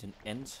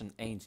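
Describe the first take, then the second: First: The vowel is a plain short 'e'. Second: The vowel is the diphthong 'ei'. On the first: The speaker calls it wrong. "Niet een end. Dat is ook Twents" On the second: The speaker calls it right. "Lars, een eind"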